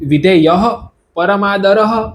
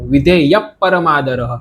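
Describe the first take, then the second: First: The middle h-sound is fully pronounced. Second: The middle h-sound is barely audible. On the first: The speaker calls it wrong. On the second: The speaker calls it right.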